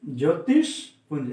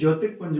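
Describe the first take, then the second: First: A sh sound comes before punj. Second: An r sound comes before punj. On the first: The speaker calls it right. "शुद्ध शब्द होगा ज्योतिषपुंज" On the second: The speaker calls it wrong. "निन्यानवे percent छात्र यहाँ गलती करते हैं"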